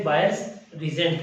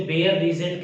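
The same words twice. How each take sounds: First: बायर्स with an "eye" sound, BA-yers; alternative pronunciation. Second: बेयर with an "ay" sound, BAY-yer; alternative pronunciation. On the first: Teacher noting what others call the reagent, बायर्स as "BA-yers". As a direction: say बायर्स like English "buyers". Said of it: "कुछ इसे बायर्स reagent कहते हैं". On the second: Teacher noting what some people call the reagent, बेयर as "BAY-yer". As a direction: say बेयर with the first syllable like "bay". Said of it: "कुछ लोग इसे बेयर reagent कहते हैं". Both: Shown as a demonstration.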